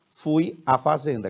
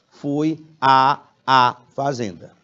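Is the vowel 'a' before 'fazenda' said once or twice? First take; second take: once; twice. First: The vowel 'a' is said only once. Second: The vowel 'a' is said twice in a row. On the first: The speaker calls it right. "Só um A" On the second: The speaker calls it wrong. "Mas você nunca vai pronunciar assim"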